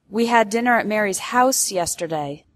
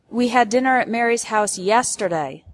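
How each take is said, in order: First: The word house carries the main stress. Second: The word yesterday carries the main stress. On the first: It corrects the place, not an apartment. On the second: It corrects the time, not last week.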